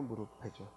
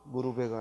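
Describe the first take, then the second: First: The middle consonant is an aspirated p sound. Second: The middle consonant is a soft b sound. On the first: The speaker calls it right. "피읍으로 발음을 해야죠" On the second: The speaker calls it wrong. "무릎에가 아니라"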